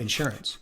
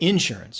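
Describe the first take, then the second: First: It is said with a standard US pronunciation. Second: It is said with a Southern US pronunciation. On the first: This is how the speaker says it. The speaker calls it right. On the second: This is how people in the South say it. The speaker calls it wrong. "down here in the South, right? They say insurance"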